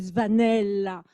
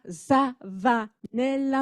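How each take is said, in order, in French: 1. Le Z se colle directement au v. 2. Une voyelle s'entend entre le Z et le v. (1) "mais c'est Zvanella" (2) "c'est pas Zavanella"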